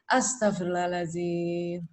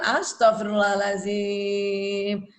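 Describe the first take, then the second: First: It is said calmly in a low pitch. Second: It is said angrily in a high pitch. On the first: The speaker calls it right. "yang kurang dari dua ratus hertz" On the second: The speaker calls it wrong. "Kita marah sama anak kan kita gitu kan"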